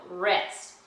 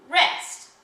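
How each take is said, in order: First: Said in the usual way. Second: Rest said higher and louder with a gesture; classroom rest. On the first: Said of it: "what we're going to call it". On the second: Shown as a demonstration. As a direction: pop out the word rest as a signal. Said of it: "we show rest like this".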